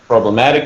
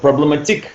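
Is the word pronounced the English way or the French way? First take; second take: English; French. First: The word is pronounced the English way. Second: The word is pronounced the French way.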